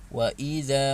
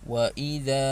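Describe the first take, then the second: No difference in how they are said.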